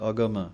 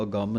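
First: ਅਗਮ said light and open, no nasal; a plain light ਅਗਮ; correct pronunciation. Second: ਅਗੰਮ with a nasal doubled m; the mistaken ਅਗੰਮ, nasalised; wrong pronunciation. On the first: Teacher showing students the right way, a light ਅਗਮ. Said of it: "ਪਾਠ ਬੋਲਣਾ ਹੈ ਅਗਮ". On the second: Teacher showing students the mistake to avoid, ਅਗੰਮ nasalised. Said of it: "ਨਹੀਂ ਕਹਿ ਦੇਣਾ". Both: Shown as a demonstration.

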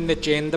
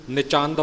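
First: ਨਿਚਿੰਦ as "ni-chind", i in the second syllable; mistaken reading ਨਿਚਿੰਦ. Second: ਨਿਚੰਦ as "ni-chand", a in the second syllable; correct reading ਨਿਚੰਦ. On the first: Teacher citing some reciters' misreading, ਨਿਚਿੰਦ as "ni-chind". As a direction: say ਨਿਚਿੰਦ to rhyme its end with "Sind". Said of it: "ਕਈ ਪਾਠੀ ਨਿਚਿੰਦ ਪੜ੍ਹ ਜਾਂਦੇ ਨੇ". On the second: Teacher giving reciters the true reading, ਨਿਚੰਦ as "ni-chand". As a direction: say ਨਿਚੰਦ ending in "chand", not "chind". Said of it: "ਨਿਚੰਦ ਪਾਠ ਹੈ ਜੀ". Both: Shown as a demonstration.

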